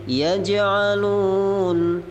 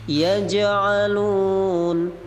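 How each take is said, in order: Both takes have the same delivery.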